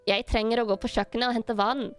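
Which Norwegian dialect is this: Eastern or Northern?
Eastern. It is spoken in an Eastern Norwegian accent. "if I'm going to say it in an Eastern Norwegian dialect"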